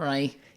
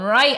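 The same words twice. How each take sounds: First: The word is said in a lower, normal voice. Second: The word is said in a high-pitched voice. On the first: It is the speaker's own way of saying it. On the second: It imitates the other host's way of saying it.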